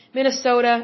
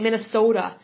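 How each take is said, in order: First: Said in the usual way. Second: Lightly imitated Minnesota accent, long O. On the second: Host fondly imitating listeners from the state, light Minnesota accent. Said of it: "I love how you guys say your".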